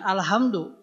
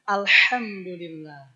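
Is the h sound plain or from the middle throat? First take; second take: plain; middle throat. First: The h is a plain, light breathy sound. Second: The h is a harsh sound from mid-throat. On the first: The speaker calls it wrong. "Jangan alhamdulillah ya" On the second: The speaker calls it right. "tapi alhamdulillah"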